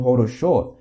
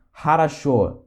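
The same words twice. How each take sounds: First: Хорошо misread as "ho-ro-SHO"; every O pronounced O. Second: Хорошо said "ha-ra-SHO", unstressed O as A; O read as A. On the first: Teacher showing the mistaken reading, хорошо as "ho-ro-SHO". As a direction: say хорошо with three full O sounds. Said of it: "e não хорошо". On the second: Teacher giving the correct reading, хорошо as "ha-ra-SHO". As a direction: say хорошо with two A sounds, then SHO. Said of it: "se lê хорошо". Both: Shown as a demonstration.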